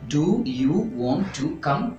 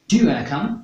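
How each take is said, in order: First: Want and to are said as separate full words. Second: Want and to blend into one word, wanna.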